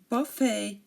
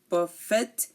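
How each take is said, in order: First: The final T sound is silent. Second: The final T sound is pronounced. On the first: The speaker calls it right. "We say" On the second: The speaker calls it wrong. "We do not say"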